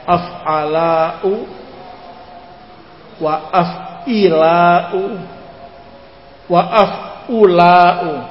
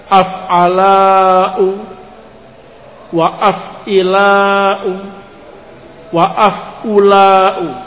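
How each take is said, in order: The two takes are said the same way.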